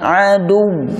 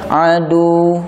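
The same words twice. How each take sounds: First: The w sound is pressed and doubled. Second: The w sound is short and single. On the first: The speaker calls it right. "Tapi kalau dibaca adu, nah, berarti wawnya tasydid" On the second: The speaker calls it wrong. "kalau dibaca adu berarti wawnya tidak bertasydid"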